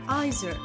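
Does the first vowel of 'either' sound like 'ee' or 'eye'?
eye. The first vowel sounds like 'eye'. "British English typically pronounces the I sound"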